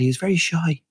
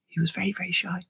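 First: Said in the usual way. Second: Hushed, breathy whisper; whispered aside. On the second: Shown as a demonstration. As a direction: whisper it like a secret. Repeats line in a whisper.

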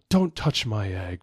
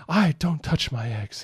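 First: A hint of a regal dragon queen, slowed down; lightly voiced, slow queenly warning; Queen Coral. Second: Higher, slow mock-regal dragon queen voice; a child's hammed-up queenly warning; Queen Coral. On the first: Dad reading the line to his daughter, lightly voiced queen. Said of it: "how do you think Queen Coral would say this line". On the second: Daughter performing her line as asked, higher mock queen voice. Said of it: "So read it like Queen Coral would".

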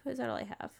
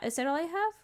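First: Whispered to herself. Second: Said in the usual way. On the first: Real, not acted. Player whispering while checking her island list. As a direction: murmur it under your breath as you count.

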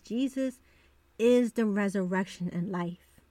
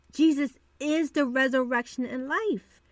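First: Said in the usual way. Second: Firm stress on IS in "Jesus is the resurrection"; emphatic repeat. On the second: Real, not acted. Podcast host reassuring the ladies who lost hope, emphatic stress on IS.

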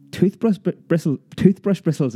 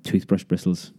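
First: High, stumbling cry of disbelief; startled child crying out the words; excited outcry. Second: Said in the usual way. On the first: A narrator's reading. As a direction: blurt it out, tripping over the words. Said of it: "I cried". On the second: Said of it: "she answered".

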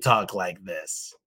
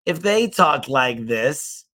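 First: Then you should talk like this comes slow, lower and softer; slow, lower demo. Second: This talk like this is spoken slowly, each word separate; slow demo. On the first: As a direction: mirror the slow talker, lower and calmer. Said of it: "then you should talk like this". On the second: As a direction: show a slow talker. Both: Shown as a demonstration.

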